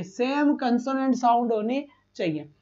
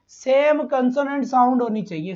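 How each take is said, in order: First: सेम stressed, whole phrase slowed; slow emphasis. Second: Said in the usual way. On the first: Shown as a demonstration. Teacher repeats the rule slowly so students remember.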